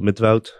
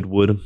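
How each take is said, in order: First: The name is said with a Dutch pronunciation. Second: The name is said with an American pronunciation.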